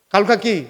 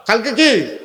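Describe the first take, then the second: First: Said in the usual way. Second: Sharper repeated question to the crowd; insistent call-and-response question; emphatic prompt. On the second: Real, not acted. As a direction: press the congregation for an answer. Repeats prompt to congregation, more forcefully.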